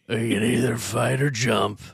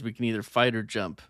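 First: It is said in an Indiana Jones impression. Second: It is said in the speaker's own voice.

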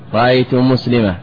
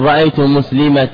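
First: The last word ends in an h sound. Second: The last word ends in a ta sound. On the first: "تبدلها هاء" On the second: "بإبدال التنوين ألفا"

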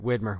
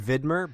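First: The name is said with a local American pronunciation. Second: The name is said with a German pronunciation. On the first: The brand is from Oregon. "All right, Widmer" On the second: The brand would be German. "if it was German, it'd be Widmer"

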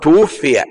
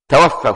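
First: The word begins with 'tu', a passive form. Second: The word begins with 'ta', an active form. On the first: Someone else took the person's life. The speaker calls it right. "لكن تقول توفي يعني من قبل الله" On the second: The person caused his own death. The speaker calls it wrong. "لا غلط، ما تقول توفى"

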